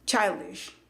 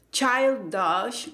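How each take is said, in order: First: Put-on CHILDISH ending in a short "desh" or "dish"; pronunciación correcta. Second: Put-on CHILDISH slowly, ending in schwa "dush"; pronunciación incorrecta. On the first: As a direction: say CHILDISH as "chail-dish", no schwa. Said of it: "es con ese sonido E". (CHILDISH con sonido "e" corto: "chaildish") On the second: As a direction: wrongly say CHILDISH as "chail-dash". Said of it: "no es childish con A". (CHILDISH mal dicho, con schwa: "chaildash") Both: Shown as a demonstration.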